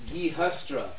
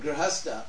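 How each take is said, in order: First: The R sound comes in the last syllable. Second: The R sound comes right after the first consonant. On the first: The speaker calls it wrong. "it's worse than that. They tend to say Gihastra" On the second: The speaker calls it right. "say the word Grihastha"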